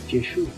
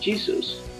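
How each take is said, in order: First: The name is pronounced the Italian way. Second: The name is pronounced the English way. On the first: "pronunciación aproximada" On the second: "pronunciación en inglés"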